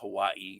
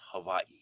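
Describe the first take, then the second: First: The middle consonant is a W sound. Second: The middle consonant is a V sound. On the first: The speaker calls it wrong. "It's not Hawaii" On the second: The speaker calls it right. "pronounced with the with the V sound for the W"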